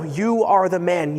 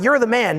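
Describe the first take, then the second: First: It is said in an accusing, serious tone. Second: It is said in a praising, positive tone.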